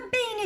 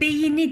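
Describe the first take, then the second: First: It has two syllables, with no vowel before n. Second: It has three syllables, with a vowel before n. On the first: The speaker calls it right. "beyni diyorum" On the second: The speaker calls it wrong. "Beyni demiyorum"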